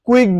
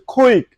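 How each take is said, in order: First: "কুইক" with unaspirated k; everyday local "কুইক", no puff; common mispronunciation. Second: "কুইক" with aspirated k, "khwik"; teacher's model "khwik"; correct pronunciation. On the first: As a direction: say "কুইক" with a plain k. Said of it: "বলি আমরা". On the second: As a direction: puff hard on the k of "কুইক". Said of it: "এটা হচ্ছে". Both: Shown as a demonstration.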